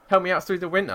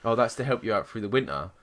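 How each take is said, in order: First: High-pitched, indignant repeat; incredulous echo. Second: Said in the usual way. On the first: Retold or imitated. Customer retelling her comeback to the energy agent, incredulous. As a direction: throw it back in outraged disbelief.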